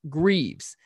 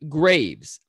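First: The vowel sounds like the one in leaves. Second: The vowel sounds like the one in caves. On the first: "pronounce it the way Alex did on the podcast" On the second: "pronounce the name with the first E silent"

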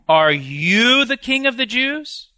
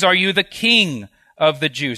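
First: 'You' is strongly stressed, sounding incredulous. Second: 'You' carries no special stress.

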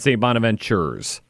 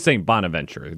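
First: The name ends with an extra s sound. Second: The name ends without an extra s sound. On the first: The speaker calls it wrong. "It's not St. Bonaventure's" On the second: The speaker calls it right. "Just St. Bonaventure"

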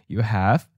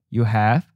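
Both takes have the same delivery.

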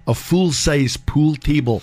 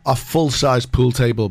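First: It is said in a Scottish accent. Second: It is said in the speaker's plain accent.

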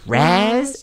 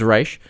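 First: The name ends in a 'z' sound. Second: The name ends in an 'sh' sound. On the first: The speaker calls it wrong. "am I pronouncing this right?" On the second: The speaker calls it right. "His name's Raish"

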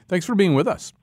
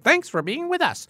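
First: It is said in a plain, normal voice. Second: It is said in a put-on robot voice. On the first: "I should have said that in a joyous robot voice" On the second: "That was pretty good, right?"

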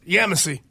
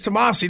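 First: The word begins with a Y sound. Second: The word begins with a T sound. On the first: This is the form used down south. "Down there it's Yamasi" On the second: This is the form used up north. "Up here it's Tamasi"

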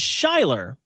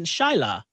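First: The name is said without a British accent. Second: The name is said with a British accent. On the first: "your name is Shyler" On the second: "if you have a British or London accent, you're gonna pronounce it"

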